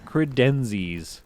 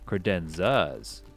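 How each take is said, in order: First: The word ends with an 'is' sound. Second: The word ends with an 'as' sound. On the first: The speaker calls it wrong. "Any credenzis" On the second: The speaker calls it right. "if you're not a monster and you want to pronounce it right"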